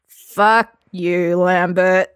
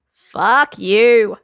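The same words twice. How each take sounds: First: Groaning. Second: Put-on drunken retort. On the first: Acted. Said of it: "Geralt groaned". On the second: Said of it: "Lambert said".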